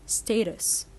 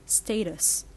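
Both takes have the same delivery.

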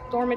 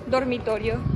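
First: It is said with an American accent. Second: It is said with a Spanish accent.

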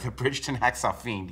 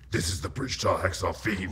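First: It is said in his normal voice. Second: It is said in a put-on voice.

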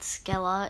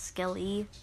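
First: The name ends with an 'ah' sound. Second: The name ends with an 'ee' sound. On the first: The speaker calls it wrong. "I said it wrong in the first two. I said Skella" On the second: The speaker calls it right. "it's Skelly"

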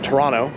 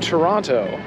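First: The second T is dropped. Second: The second T is clearly pronounced.

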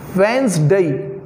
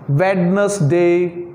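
First: The D sound is silent in the word. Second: The D sound is pronounced in the word. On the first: The speaker calls it right. "But here is D is silent. It's Wednesday" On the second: The speaker calls it wrong. "The third one is generally pronounced Wednesday"

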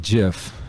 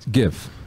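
First: The word begins with a soft G sound. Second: The word begins with a hard G sound. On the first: The speaker calls it wrong. "people will say GIF" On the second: The speaker calls it right. "So it's a hard G. So it's GIF"

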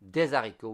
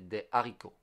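First: The words are linked with a Z sound. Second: The words are kept separate without linking. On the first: The speaker calls it wrong. "there is no liaison, so we don't say des haricots" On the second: The speaker calls it right. "we say des haricots"

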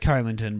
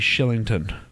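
First: The name begins with a hard K sound. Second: The name begins with an SH sound. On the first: The speaker calls it wrong. "It looks like" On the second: The speaker calls it right. "but it should be"

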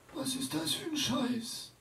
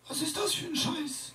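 First: The line sounds only mildly aggressive. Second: The line sounds the most aggressive. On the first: "J'ai fait un petit crescendo d'agressivité chez le vieux" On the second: "J'ai fait un petit crescendo d'agressivité chez le vieux"

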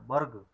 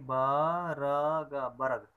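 First: The r is pronounced short, as a half sound. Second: The r is pronounced as a full syllable. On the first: The speaker calls it right. "रा को कम देर के लिए उच्चारण करते हैं" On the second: The speaker calls it wrong. "बर्ग पढ़ेंगे तो रा पूरा उच्चारण होगा"

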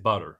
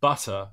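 First: The word is said with an American accent. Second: The word is said with a British accent. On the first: This is how the American students say it. The speaker calls it wrong. "they're going to say butter" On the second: This is how the coach says it. The speaker calls it right. "If I say butter"

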